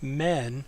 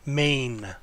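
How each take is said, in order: First: The syllable has a short vowel. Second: The syllable has a long vowel. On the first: The speaker calls it wrong. "not men, but notice this is the long version here" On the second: The speaker calls it right. "That's how you pronounce the word"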